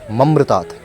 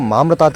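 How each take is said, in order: First: The first vowel is short. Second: The first vowel is long. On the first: The speaker asks for death. The speaker calls it wrong. "मामृतात् की जगह ममृतात् का उच्चारण कर रहा था" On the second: The speaker asks for freedom from the cycle of life and death. The speaker calls it right. "मामृतात् का मतलब होता है कि मुझे जीवन मरण के चक्र से मुक्ति मिले"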